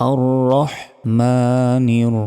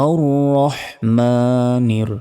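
Both takes have the same delivery.

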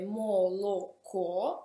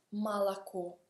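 First: The unstressed vowels sound like full 'o'. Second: The unstressed vowels sound like 'a'. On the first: This is how the word is written. "scrive moloco" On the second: This is how the word is actually said. "ma si pronuncia malaco"

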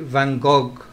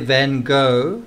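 First: 'Gogh' ends with a hard 'g' sound. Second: 'Gogh' ends on an open 'o' vowel. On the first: This is how French people say it. "The French say Van Gogh" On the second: This is how Americans say it. "The Americans say Van Gogh"

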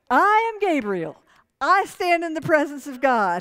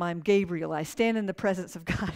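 First: It is said in an annoyed, indignant tone. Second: It is read in a plain, neutral tone.

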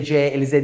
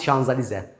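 First: The name begins with a 'jay' sound. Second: The name begins with a 'shan' sound. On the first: The speaker calls it wrong. "J-Elize J-Elize diye millet söylüyor" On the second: The speaker calls it right. "Aslında onun okunuşu Şanzalize'dir"

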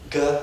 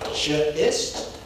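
First: The word begins with a hard G sound. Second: The word begins with a soft J sound. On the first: "because it's gastrointestinal GIST" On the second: "do you pronounce it as an A"

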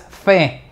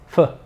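First: The vowel is a full clear 'e' sound. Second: The vowel is a short, weak schwa. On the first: The speaker calls it wrong. "Esta es una schwa, por lo tanto no es fe" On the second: The speaker calls it right. "Esta es una schwa"

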